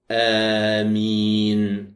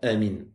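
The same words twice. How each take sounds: First: The vowels are drawn out long. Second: The word is said quickly and short.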